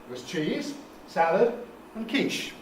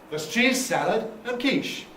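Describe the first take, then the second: First: A phrase break separates cheese from salad. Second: Cheese and salad run together without a break. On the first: Three separate foods are offered. "three possibilities. There are the pictures, some cheese, some salad and some quiche" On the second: Two foods are offered, one being cheese salad. "Only two, either cheese salad, compound noun, or quiche"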